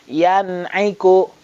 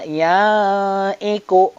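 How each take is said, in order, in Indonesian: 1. Bunyi n diucapkan dengan jelas sebelum vokal. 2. Bunyi n dihilangkan di antara kedua kata.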